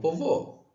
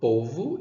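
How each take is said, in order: First: The stress is on the last syllable. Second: The stress is on the first syllable. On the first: The speaker calls it wrong. "e não" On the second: The speaker calls it right. "Po é mais forte"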